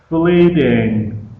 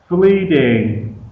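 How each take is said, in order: No difference in how they are said.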